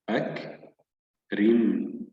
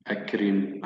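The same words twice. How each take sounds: First: "أكرم" slowly split as أَكْ, pause, رِمْ; syllable by syllable. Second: Said in the usual way. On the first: Shown as a demonstration. Teacher points out two silent letters, slow split reading. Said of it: "الكاف ساكنة والميم ساكنة". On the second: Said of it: "سنعيد قراءة الكلمة بشكل كامل".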